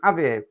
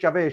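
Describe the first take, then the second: First: The name begins with an H sound. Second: The name begins with a J sound. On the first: "with a H" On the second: "your name's Javir"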